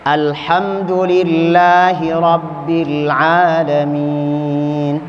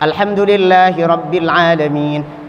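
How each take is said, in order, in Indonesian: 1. Dibaca dengan tempo yang tenang dan sedang. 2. Dibaca dengan tempo yang cepat. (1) "Ada yang tenang, mutawassit, tawassut, pelan. ... Sedang" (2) "Ada qori yang memang cepat, seperti halnya dia membacanya dengan hadr"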